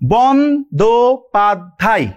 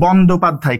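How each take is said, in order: First: The word is said slowly, syllable by syllable. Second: The word is said at normal speed.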